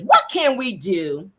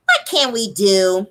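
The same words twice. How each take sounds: First: Said in the usual way. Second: Slow drawn-out imitation of Melody; Melody's voice. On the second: Host voicing Melody's question to the group, slow and drawn out. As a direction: say it slowly like Melody. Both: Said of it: "let me say it in her voice".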